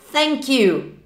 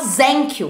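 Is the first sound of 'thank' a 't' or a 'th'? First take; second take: th; t. First: The first sound is 'th', tongue between teeth. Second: The first sound is a plain 't'. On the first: The speaker calls it right. "linguinha no meio do dente aqui" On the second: The speaker calls it wrong. "Tem aluno que fala thank you. Pelo amor de Deus, gente"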